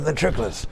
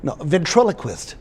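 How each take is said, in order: First: Ventriloquist slurred to ventrikelist; garbled pronunciation. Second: Ventriloquist said as ven-TRIL-o-quist; correct pronunciation. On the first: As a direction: ventriloquist mumbled, syllables swallowed. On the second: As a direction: ventriloquist with every syllable clear. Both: Shown as a demonstration.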